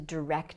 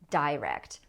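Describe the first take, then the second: First: The stress is on the second syllable. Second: The stress is on the first syllable.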